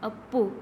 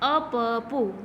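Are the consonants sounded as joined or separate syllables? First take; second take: joined; separate. First: The doubled consonant is joined into one cluster. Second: Each letter is sounded as its own syllable. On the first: "અડધો બોલીએ તો અપ્પુ" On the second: "અપપુ આખો બોલીએ તો અપપુ થાય"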